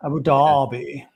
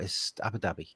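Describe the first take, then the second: First: Abu Dhabi with a long, well-spoken DAH-bi; mock posh Abu Dhabi. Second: Abu Dhabi said short, AB-uh DAB-ee, quiet; the plain northern Abu Dhabi; correct Abu Dhabi. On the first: Host mimics well-spoken southerners saying the city. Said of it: "when people call it Abu Dhabi". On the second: Shown as a demonstration. Co-host corrects the posh version quietly. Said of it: "and it's not".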